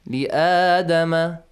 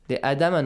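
First: The vowel after li is held two counts. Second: The vowel after li is cut short. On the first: The speaker calls it right. "Two counts" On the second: The speaker calls it wrong. "Sometimes we forget that alif, ... no"

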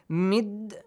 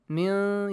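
First: The n sound is merged into a d. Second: The n sound is kept but lightly hidden. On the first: The speaker calls it wrong. "Mid, you don't say" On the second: The speaker calls it right. "Min, you hide the sound"

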